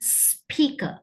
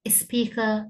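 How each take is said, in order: First: The word starts directly with the s sound. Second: An extra vowel is added before the s sound. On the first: The speaker calls it right. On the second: The speaker calls it wrong.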